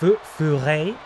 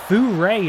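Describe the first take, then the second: First: The R is a French-style throaty R. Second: The R is an English-style R. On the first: The speaker calls it right. "with a stereotypically French R" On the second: The speaker calls it wrong. "Got my French pronunciation wrong"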